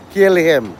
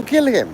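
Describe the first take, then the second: First: Said in the usual way. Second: "Kill him." leaps much higher, "Kill" punched; emphatic high order. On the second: Shown as a demonstration. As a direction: throw "Kill him." up high like a rallying cry. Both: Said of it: "he's bothering you? Kill him".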